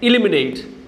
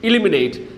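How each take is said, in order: Both takes have the same delivery.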